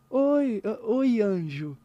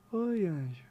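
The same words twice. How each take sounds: First: Higher, louder mock-sweet hello; ironic greeting. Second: Loving greeting. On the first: Musician demonstrating intention, ironic hello to a friend. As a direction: say hi with an ironic edge. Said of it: "um é meio, meio irônico". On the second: Musician demonstrating intention, loving hello to a friend. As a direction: greet someone you love, gently. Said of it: "é amoroso". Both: Shown as a demonstration.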